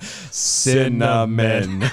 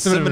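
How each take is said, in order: First: The word is said slowly and carefully. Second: The word is said quickly and runs together. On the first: The speaker calls it right. "Now I just slow down and just say it real slow" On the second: The speaker calls it wrong. "if I get too fast or I let it run off"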